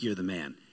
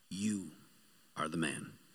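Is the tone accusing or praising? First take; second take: praising; accusing. First: It is said as cheerful praise. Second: It is said as a serious accusation.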